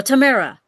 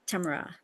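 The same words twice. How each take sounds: First: Tamara said as tuh-MAIR-uh, louder and higher; alternative pronunciation. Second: Tamara said as TAM-ruh, first syllable stressed; first pronunciation. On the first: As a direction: punch the middle syllable of "Tamara". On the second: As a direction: say "Tamara" quietly, stress up front. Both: Shown as a demonstration. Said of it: "how do you say?".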